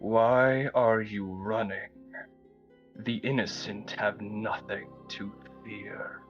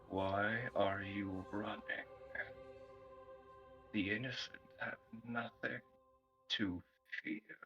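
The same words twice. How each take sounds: First: It is spoken more loudly. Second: It is spoken very quietly. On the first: "Say it again, please" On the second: "You said that very quiet"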